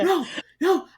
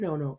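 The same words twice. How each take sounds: First: It is said sharply, close to yelling. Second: It is said gently and patiently. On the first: The training was done by scolding. "It's more like" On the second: The training was gradual and gentle. "this like very patient progress"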